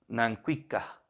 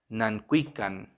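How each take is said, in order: First: The word ends in a glottal stop. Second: The word ends in an n sound. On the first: "en plural con un saltillo al final" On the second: "algunas variantes han ahí suplido el saltillo por N"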